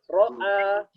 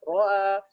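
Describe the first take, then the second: First: The glottal stop is full and firm. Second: The glottal stop is softened and weak. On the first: "hamzahnya muhakkik, ya, tahqiq" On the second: "ada yang baca roa"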